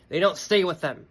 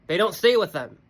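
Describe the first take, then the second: First: Said in the usual way. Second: "stay" hit harder, repeated with more force; emphatic repeat. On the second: Shown as a demonstration. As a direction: drive "They don't stay with them" home on "stay".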